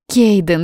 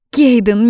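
First: Pleading. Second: Кейден called high and loud, rising at the end; Кейден as a loud, high, rising question; astonished call. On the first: Yuna pleading, cut off. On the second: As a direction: cry Кейден rising in disbelief. Yuna stunned, rising call. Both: Acted.

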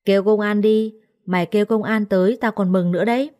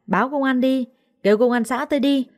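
First: Scornful defiance. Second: High-pitched wail for the police; playing the victim. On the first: Accused maid dares her rival to call the police, mildly scornful. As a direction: dare them, with a touch of scorn. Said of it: "Tôi cười lớn". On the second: Accusing maid appeals to the onlookers, playing the victim. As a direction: raise the pitch, make a scene as the wronged one. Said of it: "nó chỉ tay vào mặt tôi ăn vạ". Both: A narrator's reading.

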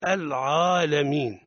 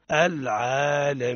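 First: العالمين with an exaggerated ع; wrong pronunciation. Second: العالمين with a balanced ع, neither heavy nor thin; correct pronunciation. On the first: Teacher showing the overdone ع as a mistake. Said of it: "هذا خطأ". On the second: Teacher modelling the correct ع in العالمين. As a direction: say the ع in العالمين cleanly, moderate. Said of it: "الصواب". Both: Shown as a demonstration.

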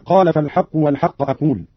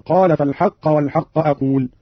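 First: Said in the usual way. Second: "فالحق" ending in -a, fal-haqqa; accusative first word. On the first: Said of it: "بنصب الأول". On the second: Shown as a demonstration. Teacher demonstrates Qalun's reading, "فالحق" with final -a. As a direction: open the last vowel of "فالحق" to a. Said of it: "بنصب الأول المقرون بالفاء".

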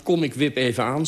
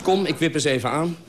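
First: A mildly sheepish "kom, ik wip even aan"; apologetic. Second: Light and chuckling, pitched higher; breezy, laughing. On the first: A narrator's reading. Narrator excusing himself to his friend, mildly apologetic. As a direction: offer it lightly as an excuse, not a plan. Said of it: "zei ik verontschuldigend". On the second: Retold or imitated. Narrator's carefree drop-in plan, said laughing. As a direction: toss it off cheerfully with a laugh.

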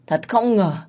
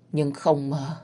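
First: Thật không ngờ pushed higher and louder on không; a bitter outburst on the repeat, hitting không; ghost's anguished rise on không; stress on không. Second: Said in the usual way. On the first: Acted. Ghost repeats phrase rising.

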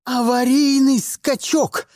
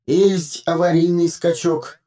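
First: Barked order. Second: Droning phone. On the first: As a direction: snap the order out in panic. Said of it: "рявкнула она". (громко и резко рявкает приказ) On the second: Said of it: "прогудел смартфон". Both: A narrator's reading.

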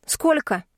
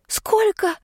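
First: Blunt, higher question; direct question. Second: Very high, breathed-out shocked «Сколько?»; shocked gasp. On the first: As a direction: ask it straight out. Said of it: "прямо спросила я". (прямой вопрос, выше) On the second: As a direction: gasp «Сколько?» in disbelief, pitch flying up. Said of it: "выдохнула я". (потрясённо выдохнутое «Сколько?», очень высоко) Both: Acted.

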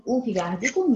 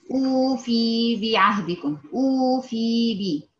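First: أوفي بعهدكم with a short, crisp kasra; demonstrating the correct reading. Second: بعهدكم drawn out slowly with an extra long i; mock the mistake of adding a letter; added long vowel. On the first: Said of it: "بالكسر". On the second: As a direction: stretch the بي in أوفي بعهدكم. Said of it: "وكأنها مد ياء". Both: Shown as a demonstration.

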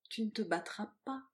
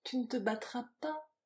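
First: Infinite gentleness. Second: Higher, tender lilt; sweetly melodious. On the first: Woman to her lover before the duel, very gentle. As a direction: gently forbid it, lovingly. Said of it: "dit-elle avec une infinie douceur". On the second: Woman clinging to her lover, sweetly melodious. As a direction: sing the plea gently. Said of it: "sur ce ton de suave mélodie". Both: A narrator's reading.

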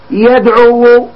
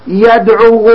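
First: يدعو said with the final u sounded clearly as the damma; pronouncing the final damma. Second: Said in the usual way. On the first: Shown as a demonstration. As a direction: let the damma on يدعو ring out at the end. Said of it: "اسمع". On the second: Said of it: "أنا كنطق بها".

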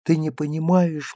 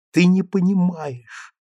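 First: High and clear. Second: Не stressed slowly, higher; slow down, lean on не; boy insisting to mother, stress on не. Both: A narrator's reading. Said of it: "Голос его зазвенел высокий и чистый".

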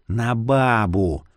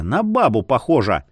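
First: Slow drawn-out ghost voice. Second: Said in the usual way. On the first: Acted. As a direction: stretch out бабу, falling, dreamy ghost. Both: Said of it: "проговорил полумесяц".

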